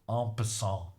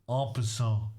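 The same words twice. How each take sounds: Both takes have the same delivery.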